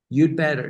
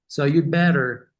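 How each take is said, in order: First: The d sound is clearly pronounced before better. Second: The d sound is said fast and barely heard. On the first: "the correct way is to pronounce it" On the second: "you say it so fast that you can barely hear it"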